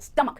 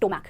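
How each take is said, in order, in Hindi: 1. पहला syllable 'stuh' जैसा सुनाई देता है। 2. पहला सिलेबल 'stoh' जैसा सुनाई देता है। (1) "पेट को आप इंग्लिश में कहेंगे स्टमक" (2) "ना कि स्टोमैक"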